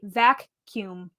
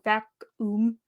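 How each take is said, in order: First: The second part sounds like 'kyoom', clearly enunciated. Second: The second part sounds like 'oom', without 'k'. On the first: This is how the speaker says it. "I say vac-cume" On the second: This is not how the speaker says it. "I don't say vacuum, like vac-oom"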